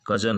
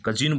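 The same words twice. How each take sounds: First: कजन with a short neutral last syllable; correct pronunciation cousin. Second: कजिन with an i in the last syllable; wrong pronunciation cousin. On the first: Teacher giving the right form कजन. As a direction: say कजन slowly with a neutral vowel. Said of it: "ये कजन है". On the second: Teacher showing the wrong form कजिन. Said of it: "जबकि कजिन नहीं है". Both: Shown as a demonstration.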